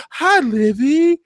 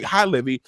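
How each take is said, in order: First: High, slow, sugary mock greeting; sweet mock greeting. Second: Said in the usual way. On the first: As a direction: coo the name like a sly mother. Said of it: "She says". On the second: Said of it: "she's like".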